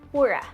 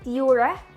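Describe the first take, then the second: First: The first syllable does not sound like pure. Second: The first syllable sounds like the word pure. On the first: The speaker calls it wrong. "and not Pura" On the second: The speaker calls it right. "naming it from the word pure. So yup, the pronunciation is Pura"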